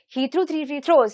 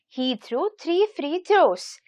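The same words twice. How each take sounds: First: It is said at a fast pace. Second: It is said at a medium pace. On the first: "increase the speed a little bit more" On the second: "Now let us increase the speed a little bit"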